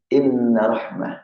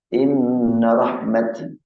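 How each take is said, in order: First: The last word ends with an h sound. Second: The last word ends with a t sound. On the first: The word is written with a round ta. "Bila tulisannya ini inna rahmah, sesuai dengan tulisan" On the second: The word is written with an open ta. "ketika tulisannya yang ini wakafnya rahmat"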